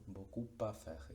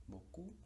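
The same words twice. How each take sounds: First: "beaucoup à faire" with the P linked into à; P liaison. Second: "beaucoup" high and soft, final P silent; "beaucoup" with no P at the end; beaucoup alone. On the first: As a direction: sound the P of "beaucoup" and join it to "à". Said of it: "Esa P aparece ligándose". ("beaucoup à faire" enlazando la P con la A) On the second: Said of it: "la pronunciación de la palabra en otro contexto". ("beaucoup" suelto, sin pronunciar la P) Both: Shown as a demonstration.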